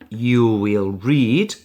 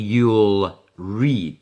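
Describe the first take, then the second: First: Will is said as a full separate word. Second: Will is reduced to an L sound.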